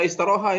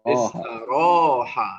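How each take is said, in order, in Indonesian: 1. Vokal setelah r itu pendek. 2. Vokal setelah r itu panjang. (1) "Antum nggak boleh baca istaroha ini" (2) "mad itu bagian dari huruf"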